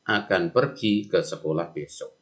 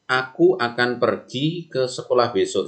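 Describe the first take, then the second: First: Even tone through "akan pergi ke sekolah besok"; level reported speech. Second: Higher-pitched quoted sentence, lifted on "Aku"; direct quotation. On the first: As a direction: report it in your usual pitch, evenly. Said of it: "Intonasinya datar". (kalimat tidak langsung, intonasi datar) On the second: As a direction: read it out as Andi's own words, pitched up. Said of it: "Andi berkata". (kutipan langsung, nada lebih tinggi) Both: Shown as a demonstration.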